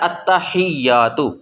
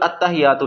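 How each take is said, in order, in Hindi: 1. 'y' की आवाज़ दोहरी होती है और झटके के साथ बोली जाती है। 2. 'y' की आवाज़ छोटी और एक बार बोली जाती है। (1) "शद को पढ़ने का तरीका पीछे वाले लफ्ज़ के साथ मिला के झटका दे के पढ़ना है" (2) "ये लफ्ज़ अत्तहिय्यातु नहीं है"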